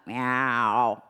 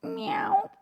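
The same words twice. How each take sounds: First: Low chest meow to contrast. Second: High falsetto meow; cat meow demo above the pencil; high kitty meow. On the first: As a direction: meow sung low, below the pencil. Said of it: "That feels like below the pencil". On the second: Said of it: "sound of a kitty cat". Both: Shown as a demonstration.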